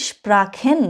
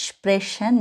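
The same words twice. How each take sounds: First: স্প্রাখেন with CH sounded "kh", drawn out. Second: স্প্রেশন with CH sounded "sh", drawn out. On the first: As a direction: say the CH in স্প্রাখেন as a throaty "kh". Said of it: "এক জায়গায় আমি খ উচ্চারণ করেছি". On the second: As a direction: say the CH in স্প্রেশন as a soft "sh". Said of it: "আরেক জায়গায় আমি স উচ্চারণ করেছি". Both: Shown as a demonstration.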